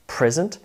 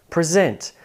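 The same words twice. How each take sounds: First: PRESent, the noun form; stress on first syllable. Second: PreSENT, the verb form; stress on second syllable. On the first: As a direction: present with PRES strong, rising at the end. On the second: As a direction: present with SENT strong, falling. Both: Shown as a demonstration. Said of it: "Can you hear the shift in syllable stress?".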